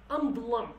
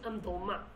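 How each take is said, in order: First: The word ends with an 'am' sound. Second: The word ends with a 'ma' sound. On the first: This is how people in Slemani say it. The speaker calls it right. "We say amdlam" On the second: This is how some other Kurdish accents say it. The speaker calls it wrong. "We don't say amdalma"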